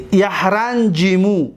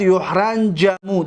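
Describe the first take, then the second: First: A at the start of یحرنجیمو, i after the j; active vowel pattern. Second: U at the start of یحرنجمو, a after the j; passive vowel pattern. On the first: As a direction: say یحرنجیمو slowly as "yahranjimu". (تلفظ معلوم یحرنجیمو: «یَحْرَنْجِمُ») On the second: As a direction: say یحرنجمو as "yuhranjamu". (تلفظ مجهول یحرنجمو: «یُحْرَنْجَمُ») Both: Shown as a demonstration.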